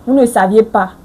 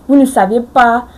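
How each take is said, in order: Both takes have the same delivery.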